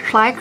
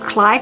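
First: The name is said with an English-like pronunciation. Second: The name is said with an English-like pronunciation.

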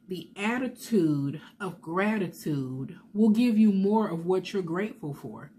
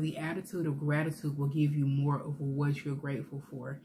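First: It is said at a slower pace, more loudly. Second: It is said at a normal pace and volume.

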